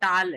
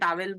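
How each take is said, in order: First: The word is said as one syllable, taal. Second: The word is said in two syllables, ta-wel. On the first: This is claimed to be the actual pronunciation. The speaker calls it right. "Actually वो टाल है" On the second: This is how people here commonly say it. The speaker calls it wrong. "जैसे अभी अपन टावेल बोलते हैं"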